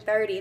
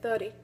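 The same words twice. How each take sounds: First: The R sound is pronounced clearly. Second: The R is dropped and replaced by a vowel. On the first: "instead of saying thirty" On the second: "they would drop the R and replace it with a vowel sound"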